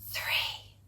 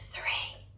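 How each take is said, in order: No difference in how they are said.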